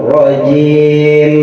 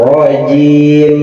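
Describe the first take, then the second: No difference in how they are said.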